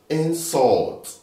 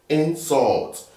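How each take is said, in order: The two takes are said the same way.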